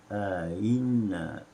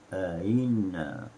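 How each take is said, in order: First: The second glottal stop is softened. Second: The same.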